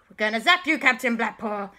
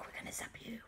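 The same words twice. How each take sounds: First: Raised, forceful warning; loud threat. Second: Barely voiced, very soft warning; whispered threat. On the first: Acted. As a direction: call out the threat to the villain. Repeated louder threat. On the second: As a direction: whisper it like a secret attack. First hushed take of threat.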